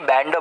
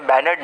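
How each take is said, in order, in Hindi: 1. n और d बिना किसी स्वर के जुड़ जाते हैं। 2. एक अतिरिक्त स्वर n और d को अलग कर देता है। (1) "बैंड बोलूंगा, एन आधा और ड पूरा" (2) "मैं बैनर्ड नहीं"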